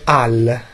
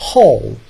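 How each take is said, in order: First: The word starts without an h sound. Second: The word starts with an audible h sound. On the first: The speaker calls it wrong. "Non si dice Al" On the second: The speaker calls it right. "Si dice Hall"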